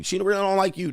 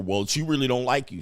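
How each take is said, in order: First: Higher-pitched mock warning; imitated nagging in a higher voice; mocking repeat. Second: Said in the usual way. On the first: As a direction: pitch it up to mimic the naysayers.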